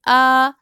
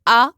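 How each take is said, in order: First: The vowel is drawn out for a long time. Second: The vowel is cut short without drawing out. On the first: "यानी आवाज को देर तक जारी किया" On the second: "मैंने यूं नहीं पढ़ा"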